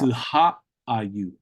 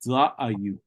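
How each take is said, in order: First: The word is said with an h sound. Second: The word is said without an h sound.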